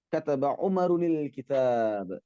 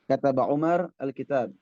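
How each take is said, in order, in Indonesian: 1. Nama tersambung ke kata berikutnya dengan -unil. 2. Nama berakhir polos, terpisah dari kata berikutnya. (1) "sama dengan" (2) "kita matikan saja nahwunya dulu"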